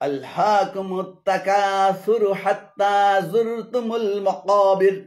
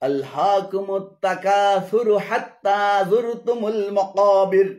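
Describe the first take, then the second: No difference in how they are said.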